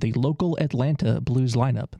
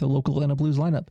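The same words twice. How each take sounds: First: It is said more slowly. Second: It is said at normal speed.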